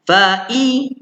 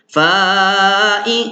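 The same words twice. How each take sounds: First: The first vowel is kept short. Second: The first vowel is drawn out long. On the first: The speaker calls it right. "fa ni baca fa'i terus" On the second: The speaker calls it wrong. "jangan baca fa'i, jangan baca panjang"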